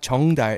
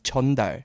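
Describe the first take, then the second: First: The first syllable ends with an 'ng' sound. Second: The first syllable ends with an 'n' sound. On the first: The speaker calls it wrong. "you said it wrong. It's not 정달" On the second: The speaker calls it right. "it's 전달"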